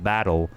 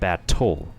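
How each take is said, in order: First: The T sounds soft, like a D. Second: The T is pronounced as a crisp, hard T. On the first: "it sounds like battle" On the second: "instead of battle"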